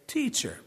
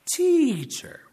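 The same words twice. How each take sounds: First: Higher, fawning "Teacher," to trap Jesus; a sly questioner calls "Teacher," sweetly; Sadducees mockingly address Jesus as "Teacher". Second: "teacher," pitched much higher and louder, ham it up; Sadducees bait Jesus, repeating a high mock "teacher,". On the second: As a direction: stretch out an oily "teacher," to bait him. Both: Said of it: "They say".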